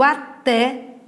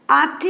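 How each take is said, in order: First: Até with an open, stressed final É; stress on last syllable. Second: "at" said as Á-te, first syllable punched; stress on first syllable. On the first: Teacher contrasting it with the verb, até stressed on TÉ. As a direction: land firmly on the TÉ of até. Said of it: "palavra oxítona terminada em E". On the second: Teacher showing the verb form "at", stressed Á-te. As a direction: hit the A of "at", with a light te after. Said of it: "é do verbo atar". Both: Shown as a demonstration.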